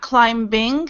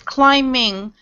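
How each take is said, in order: First: A B sound is pronounced after the M. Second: The B sound is left out. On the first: The speaker calls it wrong. "not climbing" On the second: The speaker calls it right. "you don't pronounce the B. It's climbing"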